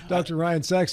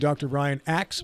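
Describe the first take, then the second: First: The surname is said with the initial s sound. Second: The surname is said without the initial s sound. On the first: This is the person's real name. The speaker calls it right. "his actual name is" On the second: Someone else would say it this way. The speaker calls it wrong. "if I had Bill introduce him, it would be"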